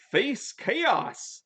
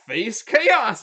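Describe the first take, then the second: First: Mock spell shout. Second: Louder, commanding shout of the spell. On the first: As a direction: cast the spell in a high, hammed-up call. Greg casting spell in retelling. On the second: Retold or imitated. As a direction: bark the spell out loud and high. Greg casting spell again.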